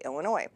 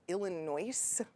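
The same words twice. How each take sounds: First: The final s is silent. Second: The final s is pronounced. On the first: The speaker calls it right. "we just say Illinois" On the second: The speaker calls it wrong. "pronounce it Illinois when they see it on a piece of paper"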